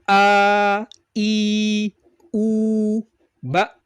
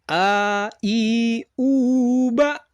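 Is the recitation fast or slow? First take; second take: slow; fast. First: The syllables are recited slowly and deliberately. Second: The syllables are recited quickly with a melody. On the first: "dengan tempo lambat atau istilahnya tahqiq" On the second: "tempo yang lebih cepat dengan nada"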